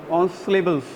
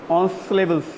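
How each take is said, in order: Both takes have the same delivery.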